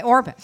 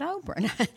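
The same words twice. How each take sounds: First: Orpah with r before p, stressed and louder; correct name. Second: Oprah, the talk-show name, said as the wrong take. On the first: Pastor correcting the name: Orpah said firmly. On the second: Pastor contrasting names: Oprah as the mistaken one. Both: Shown as a demonstration. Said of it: "Not Oprah".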